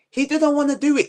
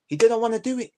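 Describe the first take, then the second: First: "He didn't wanna do it" again, higher, pressing hard on "didn't"; indignant repeat leaning on "didn't"; emphatic repeat. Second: Said in the usual way. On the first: Real, not acted. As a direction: hammer "didn't" home the second time. Repeats the point, heating up.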